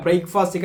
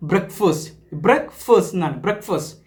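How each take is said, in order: First: "ബ്രേക്ക്ഫാസ്റ്റ്" read letter by letter, as "break-fast"; spelling-based reading. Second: "ബ്രേക്ക്ഫാസ്റ്റ്" said as "brekfust", with a short e; correct English pronunciation. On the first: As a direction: sound out "ബ്രേക്ക്ഫാസ്റ്റ്" just as it is spelt, break-fast. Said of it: "ബ്രേക്ക്ഫാസ്റ്റ് നമ്മൾ അങ്ങനെ വായിക്കുക". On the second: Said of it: "But അതിൻ്റെ pronunciation എന്താ?". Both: Shown as a demonstration.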